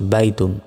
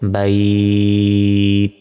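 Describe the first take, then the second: First: The vowel is short and the ending is pronounced. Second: The vowel is stretched and the word ends abruptly. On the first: The reader continues without stopping. "কোনো টান হবে না" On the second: The reader stops at this word. "যেমন বাইত, এভাবে"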